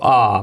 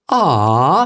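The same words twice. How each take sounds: First: The voice does not rise at the end. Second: The voice rises at the end. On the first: It is a man's plain reaction. "A man might see a puppy and go" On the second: It is a woman's empathetic reaction. "but a woman goes, ... it goes up at the end"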